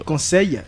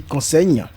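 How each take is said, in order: First: Said in the usual way. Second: "conseil" ending in gn, as "consègne"; "conseil" rhymed with "enseigne"; mimicked mispronunciation. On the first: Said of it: "Au lieu de dire conseil". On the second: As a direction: show her slip: "conseil" with a final gn instead of y. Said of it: "elle dit conseil".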